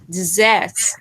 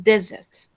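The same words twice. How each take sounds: First: "desserts" stressed on the second syllable, di-ZERTS. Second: "desert" stressed on the first syllable, DEZ-ert. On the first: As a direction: say "desserts" slowly with a weak di and strong ZERTS. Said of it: "another word that means sweets". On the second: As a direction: say "desert" slowly with a strong DEZ and weak ert. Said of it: "which one is dessert or dessert". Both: Shown as a demonstration.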